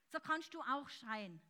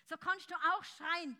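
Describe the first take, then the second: First: Said in the usual way. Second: "schreien" called out louder and higher; fervent louder call; louder fervent repeat. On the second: Shown as a demonstration. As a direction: lift it into a shout.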